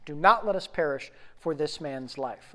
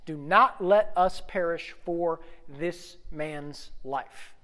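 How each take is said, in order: First: Said in the usual way. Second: Slow reading. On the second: Shown as a demonstration. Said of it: "Do not let us perish for this man's life, okay?".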